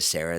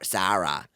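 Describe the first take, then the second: First: The name is said in a standard American accent. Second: The name is said in a Long Island accent. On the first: "instead of Sarah" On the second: "they say S- Sa- Sarah, like that"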